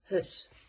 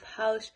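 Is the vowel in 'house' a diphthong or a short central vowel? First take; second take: central vowel; diphthong. First: The vowel is a short central vowel. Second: The vowel is a gliding diphthong. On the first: "the South African English say it as hus" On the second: "you have house"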